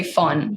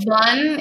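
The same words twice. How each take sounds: First: "von" said as "fon", with an F; German pronunciation of "von", F in place of V. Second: "von" with a voiced English V; "von" as in English, V not F; non-German von. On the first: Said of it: "in German we say von". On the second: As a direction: say "von" the un-German way, starting on a buzzing V. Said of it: "von is not very Germ". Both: Shown as a demonstration.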